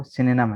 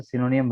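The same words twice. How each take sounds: First: सिनोनिम said as SIN-uh-num with reduced middle vowels; the true pronunciation of सिनोनिम; correct pronunciation. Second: सिनोनिम read as spelled, si-no-nim with every letter sounded; the wrong, spelled-out सिनोनिम; spelling-based reading. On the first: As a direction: give सिनोनिम its real English sound, sin-uh-num. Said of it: "लेकिन असल pronunciation इसकी जो है". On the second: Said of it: "हिज्जे के एतबार से सिनोनिम बनेगा". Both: Shown as a demonstration.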